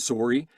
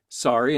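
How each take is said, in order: First: It is said with a Canadian accent. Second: It is said with an American accent. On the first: The speaker calls it wrong. "instead of sorry" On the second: The speaker calls it right. "I just had to say sorry"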